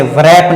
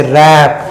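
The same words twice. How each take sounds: First: व्रैप with the W sounded, a light v before the r; teacher demonstrating the mistaken व्रैप with an audible w; wrong pronunciation. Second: रैप with a silent w, starting straight on the r; teacher giving the right reading रैप, w left silent; correct pronunciation. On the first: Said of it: "इसे व्रैप नहीं पढ़ते". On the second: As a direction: say रैप cleanly, no w sound at all. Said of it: "इसे रैप". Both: Shown as a demonstration.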